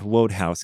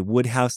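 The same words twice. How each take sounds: First: The first vowel is a long 'oh'. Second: The first vowel is not a long 'oh'. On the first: The speaker calls it wrong. "not Wodehouse ... make that an O sound, but apparently that's wrong" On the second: The speaker calls it right. "you say Wodehouse"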